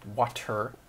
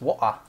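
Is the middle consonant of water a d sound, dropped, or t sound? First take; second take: t sound; dropped. First: The middle consonant is a clear t. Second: The middle consonant is dropped entirely. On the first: "the word is actually W A T E R" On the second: "she just drops the T altogether"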